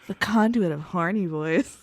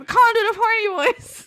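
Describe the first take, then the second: First: It is said in a put-on sultry voice. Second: It is said in a normal voice.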